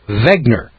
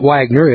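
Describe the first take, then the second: First: The name begins with a 'v' sound. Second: The name begins with a 'w' sound. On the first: The speaker calls it right. "With a V" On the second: The speaker calls it wrong. "my name is not Wagner"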